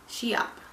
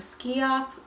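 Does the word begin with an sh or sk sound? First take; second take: sh; sk. First: The word begins with an sh sound. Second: The word begins with an sk sound. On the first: The speaker calls it right. "the SCH is usually pronounced like with the sh" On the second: The speaker calls it wrong. "Some people were saying Skee-opp"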